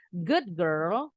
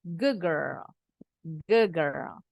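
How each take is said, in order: First: Put-on good girl with a clear D; every letter said, good girl as spelled; careful wrong good girl, D fully sounded. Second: Put-on Good girl as "goog girl"; D melts into G, Good girl; Good girl blended, the D turns to a G sound; assimilated D. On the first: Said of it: "bukan good girl". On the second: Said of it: "D-nya berubah bunyi jadi G". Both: Shown as a demonstration.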